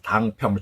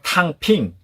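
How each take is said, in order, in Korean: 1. 처음은 예사소리 d 소리이고, 'pyeong'으로 끝납니다. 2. 처음은 거센소리 t 소리이고, 'ping'으로 끝납니다. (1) "우리나라 발음으로는 당평입니다" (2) "중국 발음은 탕핑"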